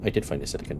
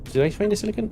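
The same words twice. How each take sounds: First: "I did find a silicon." said low, soft and falling; low statement. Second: "Did I find a silicon?" asked with pitch swinging up high; rising question. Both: Shown as a demonstration. Alternates question and statement.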